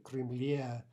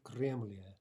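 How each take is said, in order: First: Кремле with the stress on the final е, Крем-ЛЕ; correct end stress. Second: Кремле stressed on the first syllable, КРЕМ-ле, as a wrong example; wrong stem stress. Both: Shown as a demonstration. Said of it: "note the stress".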